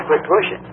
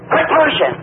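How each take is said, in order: First: Said in the usual way. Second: High-pitched crowd yell; imitated hollering. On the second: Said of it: "everybody hollered".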